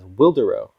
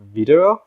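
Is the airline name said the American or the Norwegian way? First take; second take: American; Norwegian. First: It is said with an American English pronunciation. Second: It is said with a Norwegian pronunciation. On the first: "known to us Americans as" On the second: "the Norwegians pronounce it something along the lines of"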